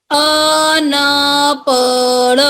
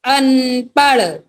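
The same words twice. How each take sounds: First: अनपढ़ drawn out in a sing-song; sing-song slow reading. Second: Said in the usual way. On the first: Shown as a demonstration. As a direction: chant अनपढ़ slowly for the class. (अनपढ़ गाते हुए धीरे से) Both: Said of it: "तीन वाले शब्द देखते हैं".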